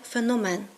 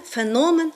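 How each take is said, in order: First: Феномен stressed on the final МЕН; end-stress it: феноМЕН; stress on last syllable. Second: Феномен stressed on НО; stress on middle syllable. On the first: Teacher quoting the rejected form, stress on феноМЕН. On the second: Teacher quoting a linguist's correct form, stress on феНОмен. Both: Shown as a demonstration. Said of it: "а не феномен".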